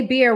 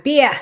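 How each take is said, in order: First: Said in the usual way. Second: "Beer" as a loud, high Boston "beah"; Boston accent. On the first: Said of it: "who says, "Say beer one more time". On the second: Shown as a demonstration. Streamer repeating "Beer" on a viewer's request, Boston accent. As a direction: drop the R in "Beer", Boston style. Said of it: "Say beer one more time".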